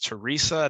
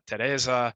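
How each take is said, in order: First: The name is said with an English pronunciation. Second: The name is said with a Czech pronunciation. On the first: This is the name as used in the game. "Henry's love interest is Teresa" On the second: This is the name in its original local form. "not Teresa"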